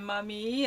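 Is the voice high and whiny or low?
low. It is said in a lower, calmer voice.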